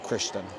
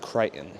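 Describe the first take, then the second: First: The name is said like 'Christian'. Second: The name is said like 'Crichton'. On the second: "You can pronounce the name as Crichton"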